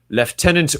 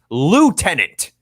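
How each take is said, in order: First: The word has an upper-class pronunciation. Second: The word has a plain, ordinary pronunciation. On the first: The speaker calls it wrong. "the upper-class pronunciation of lieutenant" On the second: The speaker calls it right. "It's pronounced lieutenant"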